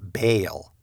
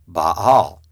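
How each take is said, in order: First: The vowels are not pronounced as two ah sounds. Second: Both vowels are pronounced as an ah sound. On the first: The speaker calls it wrong. "not Baal" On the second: The speaker calls it right. "an A is only an ah sound, you pronounce Baal"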